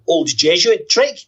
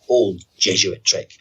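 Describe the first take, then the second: First: It rises at the end like a question. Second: It falls at the end like a statement.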